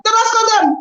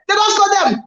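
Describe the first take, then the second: First: Even higher, stunned repeat; commentator's stunned echo; bigger mock disbelief. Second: High, rising disbelief; mock excited call. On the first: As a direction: push the repeat further into shock. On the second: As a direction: sell the shock of the goal. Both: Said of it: "Do am in the pidgin lifestyle".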